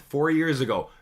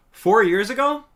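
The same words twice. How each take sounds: First: Said in the usual way. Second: High, loud disbelieving question; can't believe it's been that long; startled cry of disbelief; shocked disbelief. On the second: Real, not acted. Shocked at how old the video is.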